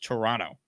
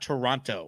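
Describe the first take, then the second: First: The second t sound is dropped. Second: The second t sound is clearly pronounced. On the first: This is how Canadians say it. The speaker calls it right. "there's no second T" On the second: This is how Americans say it. The speaker calls it wrong. "it's not Toronto, as we Americans call it"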